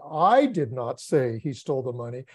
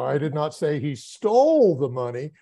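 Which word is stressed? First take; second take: I; stole. First: The stress is on the word I. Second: The stress is on the word stole.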